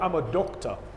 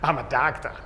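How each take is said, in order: First: It is said in a British accent. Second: It is said in an American accent. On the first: "in British accent, they say like" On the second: "And in American, the mouth is always half side"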